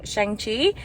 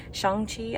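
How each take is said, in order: First: Shang-Chi said "shang-tee" with a flat a, rising as a question; unsure pronunciation. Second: Shang-Chi said "shong-tee" with an open ah, much softer; second try at pronunciation. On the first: To her viewers about a movie, tries Shang-Chi uncertainly. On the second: To her viewers after a first go, retries Shang-Chi more quietly. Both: Real, not acted. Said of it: "I don't know how to say it".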